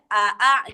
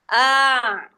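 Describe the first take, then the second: First: Two separate short vowels with a catch between. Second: One single vowel drawn out smoothly. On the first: This is the hard form with two glottal stops. "kalau ada hamzah qata itu dua berderet a a gitu" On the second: The two stops are softened into one sound. "dijadikan satu harokat fathah. Ah, gitu. Jadi dia diseret"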